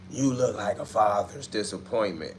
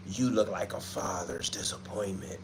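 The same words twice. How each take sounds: First: Said in the usual way. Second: A hint of a horror movie villain, much softer; scary movie voice. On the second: Streamer reading a troll's comment in a soft scary movie voice. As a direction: read the comment like a soft, creepy movie line. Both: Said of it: "You sound like you write for a scary movie".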